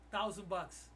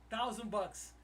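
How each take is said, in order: Both takes have the same delivery.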